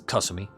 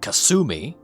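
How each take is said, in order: First: It is said with native Japanese pronunciation. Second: It is said with an anglicized English pronunciation. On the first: The speaker calls it right. "It's Kasumi" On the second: The speaker calls it wrong. "It's not Kasumi"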